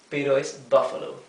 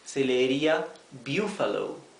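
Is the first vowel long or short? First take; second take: short; long. First: The first vowel is short. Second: The first vowel is long. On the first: The word is spelled with a double F. The speaker calls it right. "pero es" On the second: The word would be spelled with a single F. The speaker calls it wrong. "Si tuviera en cambio una sola F, se leería"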